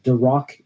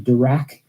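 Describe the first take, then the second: First: The second syllable sounds like the word 'rock'. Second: The second syllable does not sound like 'rock'. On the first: "not Dirac equation because I just can't help but think about Dwayne Johnson" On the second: "I pronounce the Dirac equation Dirac"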